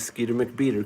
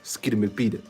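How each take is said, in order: First: It is said plainly, without extra energy. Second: It is said with showy, lively flair.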